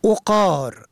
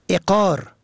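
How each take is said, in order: First: اقار said "oqar"; ضمه on first letter. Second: اقار said "eqar"; کسره on first letter. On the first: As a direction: start اقار with a short o. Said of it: "به ضم اول". (اقار با ضمهٔ عین: عُقار) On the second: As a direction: start اقار with a short e. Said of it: "به کسر اول". (اقار با کسرهٔ عین: عِقار) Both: Shown as a demonstration.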